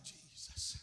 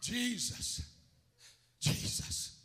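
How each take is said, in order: First: Barely audible plea; faint acted cry. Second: A firmer, more voiced call; raised but still restrained plea; louder demonstrated call. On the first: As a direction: call the name faintly. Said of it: "And she's crying". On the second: Shown as a demonstration. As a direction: call the name out so it carries. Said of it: "You gotta be loud".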